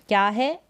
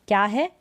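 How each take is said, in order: No difference in how they are said.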